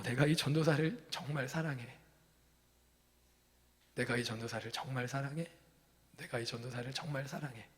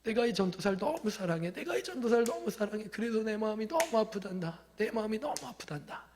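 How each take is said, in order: First: 사랑해 spoken softer and softer, gently; soft tender voice. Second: Higher, pleading lament on 너무; anguished cry. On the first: Shown as a demonstration. Preacher repeating God's love for the pastor, soft and gentle. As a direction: let "정말 사랑해" fade into a quiet tender murmur. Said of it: "부드럽게 얘기했지만". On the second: Retold or imitated. God crying out love for the lonely pastor, anguished. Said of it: "막 외치는 절규의 소리와 같았어요".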